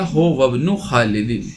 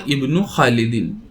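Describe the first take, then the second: First: हो वब्नु खालिदिन, initial i of इब्नु dropped; joined reading. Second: इब्नु खालिदिन with initial i sounded; standalone reading. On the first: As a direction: glide होवा straight into ब्नु as हो वब्नु. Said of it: "होवा और इब्नु मिलाकर". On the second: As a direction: start इब्नु on a clear i. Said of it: "अगर होवा ना होता". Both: Shown as a demonstration.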